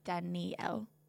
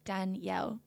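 First: The name is said with three syllables. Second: The name is said with two syllables. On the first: The speaker calls it wrong. "not Danielle" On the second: The speaker calls it right. "like two syllables, like Danielle"

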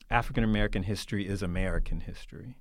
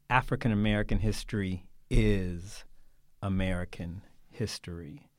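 First: The main emphasis falls on the second "American". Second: The main emphasis falls on the word "is". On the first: It is simply one part of the American story. "in the way that I just said it, what people mean by it is that it's just part of our American story" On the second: American history as a whole must be tested against it. "change the intonation of that just a little"

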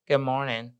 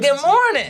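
First: The greeting is said flatly, without energy. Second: The greeting is said brightly, with energy. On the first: The speaker does not really mean it. The speaker calls it wrong. "you just can't come in and say" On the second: The speaker really means it. The speaker calls it right. "Bring some energy"

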